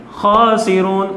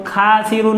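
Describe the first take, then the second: First: खासिरून with a thick, full kha; full heavy kha. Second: खासिरून with a thin, light kha. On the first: Teacher contrasts right and wrong kha, heavy. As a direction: round the kha in खासिरून heavily. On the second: Teacher demonstrates the mistake, thin kha. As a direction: read खासिरून thin, the wrong way. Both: Shown as a demonstration. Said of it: "खासिरून नहीं है".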